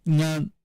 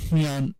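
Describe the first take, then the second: First: NGAN with a voiced nasal onset; ngan, fully voiced initial nasal; ancestor-form demo. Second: NYAN with a breath-led voiceless nasal onset; nyan, devoiced initial nasal; ancestor-form demo. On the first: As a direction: cite "ngan" higher, as a lone syllable. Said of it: "the two possible ancestors are". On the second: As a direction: say "nyan" as hnyan, y before the vowel. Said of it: "voiceless nasal there". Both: Shown as a demonstration.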